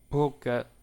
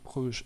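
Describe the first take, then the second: First: The name is pronounced the Dutch way. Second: The name is pronounced the French way.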